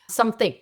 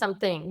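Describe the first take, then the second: First: The word ends with an added k sound. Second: The word ends in a plain ng sound.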